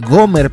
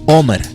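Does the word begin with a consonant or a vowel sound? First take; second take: consonant; vowel. First: The word begins with a g sound. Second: The word begins with a vowel sound. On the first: This form reflects Greek influence. "por la influencia del sonido de la pronunciación del griego" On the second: This is the original Hebrew form. "el formato original, que era en hebreo"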